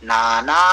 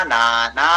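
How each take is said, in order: The two takes are said the same way.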